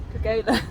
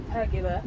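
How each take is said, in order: First: Pergola said as per-GO-la; pergola, trying again. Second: Pergola said as PER-gyuh-luh; mispronounced pergola. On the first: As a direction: say pergola with stress on GO. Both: Real, not acted. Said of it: "Apparently it's pergola".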